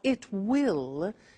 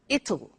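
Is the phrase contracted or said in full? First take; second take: full; contracted. First: It is said as two full words. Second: It is said as one contracted word. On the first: "You notice how it will becomes it'll" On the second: "becomes it'll"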